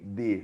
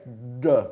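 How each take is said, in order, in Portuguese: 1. O d é feito com a língua encostada nos dentes. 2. O d é feito com a língua curvada para trás. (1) "D no dente" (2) "com a língua encostando no céu da boca"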